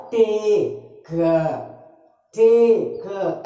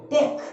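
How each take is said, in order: First: टेक stretched very slowly as "tay... kuh"; wrong, halting demo of टेक with a separate "kuh"; split into two syllables. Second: Said in the usual way. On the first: Shown as a demonstration. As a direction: drag out टेक in two broken beats. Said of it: "ऐसा बोलते हैं क्या?". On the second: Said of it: "एक बार में बोल रहे हैं बिना रुके हुए".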